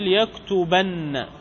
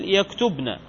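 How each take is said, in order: First: يكتبن slowly as yaktubanna, double n; emphatic doubled nun. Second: يكتبن as yaktubna, still b and single n; feminine plural nun. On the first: Teacher giving an example, يكتبن pronounced yaktubanna. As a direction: say يكتبن with an open b and held nn. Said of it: "التوكيد مثل". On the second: Teacher giving an example, يكتبن pronounced yaktubna. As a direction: say يكتبن with a closed b, then -na. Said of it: "نون الإناث". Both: Shown as a demonstration.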